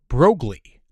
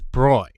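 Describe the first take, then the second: First: The name is said following its spelling. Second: The name is said without following its spelling. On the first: The speaker calls it wrong. "incorrectly pronouncing as Broglie" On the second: The speaker calls it right. "instead of the correct Broglie"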